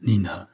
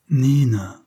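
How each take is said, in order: First: Said in the usual way. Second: The name said with tenderness; tender. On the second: Acted. Narrator says Nina's name to her with tenderness. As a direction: let affection fill her name. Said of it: "en mettant dans son prénom plus de tendresse".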